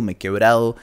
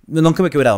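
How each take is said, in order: First: Said in the usual way. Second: Nunca 크게 강조, 높고 세게; stress on nunca. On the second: Shown as a demonstration. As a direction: punch nunca to correct himself.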